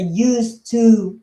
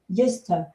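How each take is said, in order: First: Each sound is pronounced clearly and separately. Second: The two words run together, reduced and linked. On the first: "It's not a used to very pronounced" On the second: "Most native speakers just say uh"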